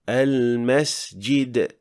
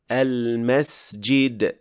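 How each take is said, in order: First: The s sound has a weak whistle. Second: The s sound has a strong whistle. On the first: The speaker calls it wrong. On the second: The speaker calls it right.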